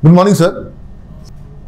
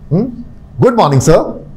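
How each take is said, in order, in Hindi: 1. Greeting फीका और बेजान लगता है। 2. ग्रीटिंग चमकदार और खुशनुमा लगता है। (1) "अब इसमें कुछ भी गुड है क्या?" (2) "are you are you actually wishing good morning?"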